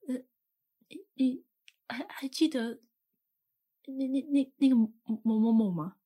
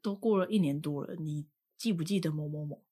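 First: It is said slowly, with halting repetitions. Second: It is said at a normal pace.

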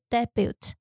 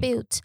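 First: The stress is on the first syllable. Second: The stress is on the second syllable.

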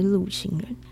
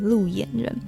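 First: The middle syllable is pronounced 'xing'. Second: The middle syllable is pronounced 'yan'. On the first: The speaker calls it right. "大家不要念错，就是他们是路行人" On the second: The speaker calls it wrong. "大家是都会念成路演人"

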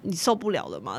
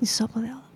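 First: It is said in a plain, matter-of-fact tone. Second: It is said in a sultry, suggestive tone.

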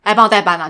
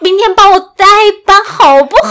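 First: It is said in a blunt, rude tone. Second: It is said in a sugary, pleading tone.

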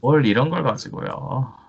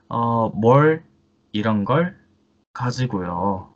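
First: The phrase is spoken at a normal pace. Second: The phrase is spoken slowly.

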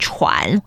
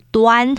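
First: The syllable is pronounced chuan. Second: The syllable is pronounced duan. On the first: "有些人可能容易会把这个字念成喘" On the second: "或者是端，就是端正的端"

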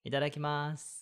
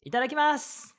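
First: It is said in a flat, plain way. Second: It is said in a cheerful, bright way.

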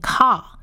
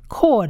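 First: The vowel sounds like a long 'a'. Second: The vowel sounds like 'o'. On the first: The speaker calls it wrong. "好像应该这个字应该是念car，但是这里不是念car" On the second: The speaker calls it right. "这个T 不念长啊，念O 的音"

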